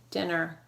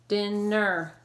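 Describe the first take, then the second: First: Said in the usual way. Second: "Dinner" split slowly into din and ner; "Dinner" drawn out, each syllable held. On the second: Shown as a demonstration. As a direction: sound out "Dinner" in two separate syllables. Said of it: "Two syllables, ready?".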